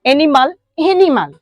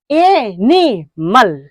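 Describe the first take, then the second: First: Said in the usual way. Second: एनिमल very slowly as ए... नि... मल, with gaps; broken into syllables. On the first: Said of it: "तीन बार जो भी word को बोलेंगे". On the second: Shown as a demonstration. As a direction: pull एनिमल apart into three long separate beats. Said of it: "लेकिन तीन बार बोलते हैं". (एनिमल को बहुत धीरे, तीन अलग खंडों में)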